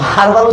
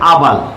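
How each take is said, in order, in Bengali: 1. শব্দটা শোনা যায় এমন h দিয়ে শুরু হয়। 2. শব্দটা স্বরবর্ণ দিয়ে শুরু হয়, h এর শব্দ নেই। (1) "তো হারবাল উচ্চারণ এখানে এন কেমনে আসবে?" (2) "এটার উচ্চারণ হচ্ছে আবাল"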